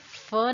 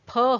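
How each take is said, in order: First: It is a lip-and-teeth f sound. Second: It is a p with a breath, both lips. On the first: The speaker calls it wrong. "फ नहीं होता" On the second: The speaker calls it right. "फ होता है ... सही उच्चारण है वो है फ"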